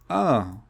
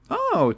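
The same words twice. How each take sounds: First: It sounds flat, deflated and disappointed. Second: It sounds bright, interested and enthusiastic. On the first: The listener has lost interest. "enthusiasm is completely extinguished" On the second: The listener is curious and keen. "someone's enthusiasm is completely extinguished"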